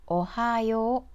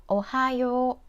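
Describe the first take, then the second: The two takes are said the same way.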